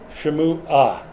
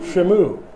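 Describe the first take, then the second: First: The name ends with an added 'ah' syllable. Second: The name ends on 'mu' with no final syllable. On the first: The speaker calls it right. "It's Shamu-ah" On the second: The speaker calls it wrong. "excuse me, I'm not pronouncing it"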